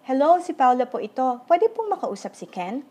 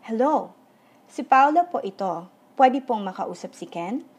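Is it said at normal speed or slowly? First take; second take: normal speed; slowly. First: It is said at normal speed. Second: It is said slowly.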